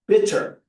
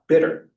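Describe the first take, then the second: First: The middle consonant is a crisp T sound. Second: The middle consonant is a soft D sound. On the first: The speaker calls it right. "it's better to use the T sound because it is the T sound" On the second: The speaker calls it wrong. "not bitter ... is to make the T a D"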